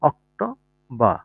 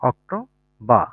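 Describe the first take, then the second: Both takes have the same delivery.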